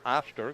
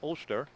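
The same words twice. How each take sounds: First: The first vowel differs from a plain O. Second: The first vowel sounds like a plain O. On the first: The speaker calls it right. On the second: The speaker calls it wrong.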